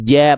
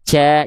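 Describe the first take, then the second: First: The j sound is firm and solid. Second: The j sound lets air leak through. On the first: The speaker calls it right. "ja, bunyinya solid" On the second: The speaker calls it wrong. "Kalau ada celah, ja, jadinya gitu"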